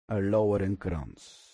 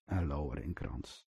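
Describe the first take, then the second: First: Said in the usual way. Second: Soft echo. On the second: Shown as a demonstration. Preacher echoing his answer to the congregation, softly. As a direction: repeat it much softer, almost to yourself.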